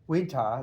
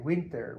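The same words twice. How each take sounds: First: The r sound at the end is dropped. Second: The r sound at the end is pronounced. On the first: "like in the British" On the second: "So we say winter"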